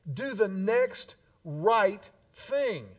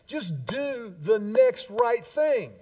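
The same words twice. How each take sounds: First: "Do the next right thing" slowly, each word weighted; slow emphatic repeat. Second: "Just do the next right thing" drawn out slowly, every word weighted; slow emphatic. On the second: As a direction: lay it down slowly like a simple rule. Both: Acted. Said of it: "It's pretty simple".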